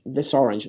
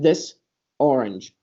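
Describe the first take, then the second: First: The two words run together without a break. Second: The two words are said separately with a break. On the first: The speaker calls it right. "here we say" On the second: The speaker calls it wrong. "not this orange"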